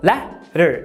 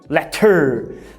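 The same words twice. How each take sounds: First: The stress is on the first syllable. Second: The stress is on the second syllable. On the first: The speaker calls it right. "Percebeu que o lé é a sílaba tônica?" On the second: The speaker calls it wrong. "e não letter"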